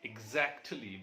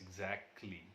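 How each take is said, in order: First: The middle t sound is pronounced. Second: The middle t sound is left out.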